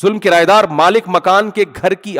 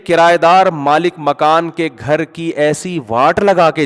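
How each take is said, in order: First: Said in the usual way. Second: کرایہ دار drawn out slowly with weight on دار; slow down and lean hard on کرایہ دار; slow emphatic restatement. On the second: Shown as a demonstration. Speaker to listeners, restating the tenant point slowly and emphatically. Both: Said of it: "لیکن حقیقت یہ ہے".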